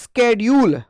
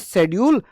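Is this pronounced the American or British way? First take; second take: American; British. First: It is said the American way. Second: It is said the British way. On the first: This is the modern way it is said now. "American English में हम क्या बोलते हैं? Latin American में हम बोलते हैं" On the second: This is the older way it was taught. "British English में शेड्यूल और एजुकेशन बोला जाता था"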